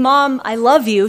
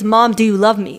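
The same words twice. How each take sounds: First: "Mom, I love you" as a drawn-out, loud statement; a declaration. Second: "Mom, do you love me" as a pressing question; turned into question. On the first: Daughter to her mother, declaring "I love you". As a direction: state "I love you" firmly, slow and falling. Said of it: "instead of saying". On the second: Daughter to silent mother, questioning "do you love me". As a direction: ask "do you love me" doubtfully, leaning on Mom. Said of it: "It turns into a question". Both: Shown as a demonstration.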